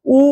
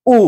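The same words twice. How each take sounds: First: উ said short and quick; short hrasva u vowel. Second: উ drawn out long; long dirgha u vowel. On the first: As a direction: clip the উ. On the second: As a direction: hold the উ longer. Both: Shown as a demonstration. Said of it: "ঠিক একইভাবে".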